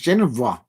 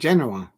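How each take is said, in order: First: The name has a v sound before the final vowel. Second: The name has no v sound before the final vowel. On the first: The speaker calls it wrong. "I thought it was Genova" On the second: The speaker calls it right. "There is no V in it"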